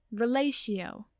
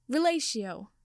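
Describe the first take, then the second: First: Firmly spoken incantation, falling at the end. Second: Cried out. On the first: Professor trying the spell a second time, firmly. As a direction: cast it firmly, with control. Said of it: "she said firmly". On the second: Professor casting a spell to free the tied boys, crying out. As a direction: spell cried out on a swooping, falling pitch. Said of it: "Sprout cried". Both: A narrator's reading.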